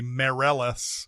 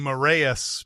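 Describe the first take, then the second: First: The double L is said as an L sound. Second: The double L is said as a Y sound. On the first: The speaker calls it right. "you actually actually pronounce the the L's" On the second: The speaker calls it wrong. "As opposed to the usual Spanish Y sound"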